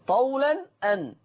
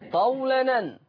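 First: The glottal stop is pronounced between the words. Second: The glottal stop is dropped and the words join.

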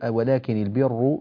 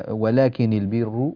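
The two takes are said the same way.

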